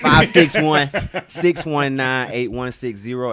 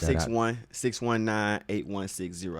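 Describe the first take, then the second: First: It is said louder, projected to the back. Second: It is said at normal volume.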